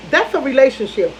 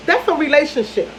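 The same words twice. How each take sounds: The two takes are said the same way.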